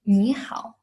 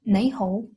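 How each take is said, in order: First: It is said in a Beijing dialect pronunciation. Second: It is said in a Shanghai dialect pronunciation. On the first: "Beijing dialect, it sounds like" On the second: "in Shanghai dialect, it's"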